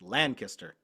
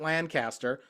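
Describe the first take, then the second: First: The name is said the way locals say it. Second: The name is said in a non-local way. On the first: The speaker calls it right. "That's how the locals pronounce it correctly" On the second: The speaker calls it wrong. "I pronounce it Lancaster because that's just what I've heard"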